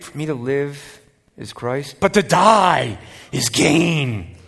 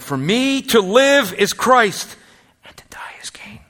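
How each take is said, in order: First: The stress is on die. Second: The stress is on live.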